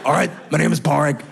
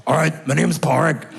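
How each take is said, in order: First: Put-on gruff old smoker voice with a laugh in it; smoker's voice impression. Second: Lightly voiced gruff old smoker, a touch louder; a teen boy voiced as a fifty-four-year-old smoker; smoker's voice impression. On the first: Comedian repeats Pádraig's impression as a laughing gruff smoker. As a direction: growl it like a fifty-four-year-old smoker. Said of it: "That's what he talked like". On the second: Comedian imitating Pádraig as a lightly voiced gruff smoker. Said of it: "This is how he talked".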